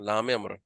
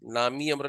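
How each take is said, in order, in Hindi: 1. 'lam' और 'amr' बिना किसी स्वर के जुड़े होते हैं। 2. एक अतिरिक्त i स्वर 'lam' को 'amr' से जोड़ता है।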